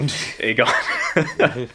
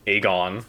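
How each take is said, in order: First: "Aegon" redone show-style, laughing, falling end; corrected pronunciation. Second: "Aegon" said with an American flat vowel and rising end; American pronunciation. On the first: Correcting his American slip, "Aegon" said the show's way. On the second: Catching his own American way of saying the name, "Aegon" Americanized. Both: Shown as a demonstration. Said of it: "my American is coming out".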